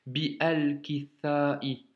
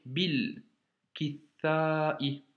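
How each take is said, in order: First: Bi, al, kitha'i split apart; no liaison. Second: Bil kitha'i joined; liaison. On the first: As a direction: break bi from al. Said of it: "Et non pas bi, al". (bi, al, kitha'i, séparés) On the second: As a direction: link bi and al into bil. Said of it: "on fait la liaison". (bil kitha'i, avec liaison) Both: Shown as a demonstration.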